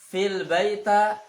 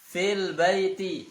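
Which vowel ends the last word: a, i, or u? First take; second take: a; i. First: The last word ends in an a vowel. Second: The last word ends in an i vowel. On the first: The speaker calls it wrong. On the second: The speaker calls it right. "Yang benar fil baiti, barisnya di bawah"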